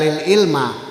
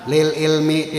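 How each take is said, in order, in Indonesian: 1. Kata itu diakhiri dengan vokal a. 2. Kata itu diakhiri dengan vokal i. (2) "dibaca J R"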